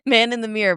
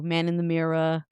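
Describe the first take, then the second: First: Mirror is said with a plain short vowel. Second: Mirror is said with a long drawn-out 'ee' vowel.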